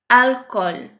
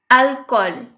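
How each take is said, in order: Both takes have the same delivery.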